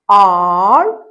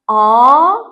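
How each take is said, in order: First: It is said with an American accent. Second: It is said with a British accent. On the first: "second is American" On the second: "first is British"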